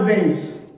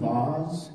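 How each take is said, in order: First: The word is pronounced in a plain way. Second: The word is pronounced in a posh way. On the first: This is the ordinary everyday way to say it. The speaker calls it right. "We'll call it a vase" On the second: Nobody here talks that fancily. The speaker calls it wrong. "No one's vase, no one's la-di-da"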